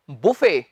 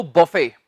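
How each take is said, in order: First: "बुफे" with u, like boo-fay; "buffet" second way. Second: "बफे" with a short a, like buh-fay; "buffet" first way. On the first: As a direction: model "बुफे" with an oo sound. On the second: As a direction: model "बफे" with an a sound. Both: Shown as a demonstration. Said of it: "इसके दो उच्चारण हैं".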